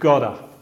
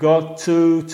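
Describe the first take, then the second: First: It is run together into one reduced word. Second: It is said as two separate full words.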